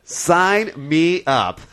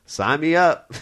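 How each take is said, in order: First: Drawn-out, higher retold acceptance; Clint Eastwood. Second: Clint Eastwood. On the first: Host mimics a movie star taking the orangutan role, drawn out slowly. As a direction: imitate an actor agreeing, stretching each word out. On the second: Retold or imitated. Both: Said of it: "and he's like".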